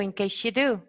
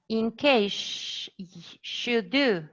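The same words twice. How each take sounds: First: The s sound is said once, words joined. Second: The s sound is said twice, separately. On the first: The speaker calls it right. "It's easier to say" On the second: The speaker calls it wrong. "It sounds awkward as well"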